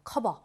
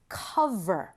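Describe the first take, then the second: First: The middle consonant sounds like an unvoiced b. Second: The middle consonant is a buzzing v. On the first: The speaker calls it wrong. "한국 사람들이 cover 그렇게 말을 하죠" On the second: The speaker calls it right. "native speaker들은 보통 cover, cover 그렇게 하죠"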